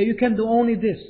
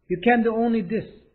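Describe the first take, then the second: First: Said in the usual way. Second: Much slower, words spaced out; slow careful repeat. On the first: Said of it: "first read". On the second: Shown as a demonstration. Teacher repeating the line slowly for students. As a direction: say it slowly for the class to copy. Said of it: "repeated slowly".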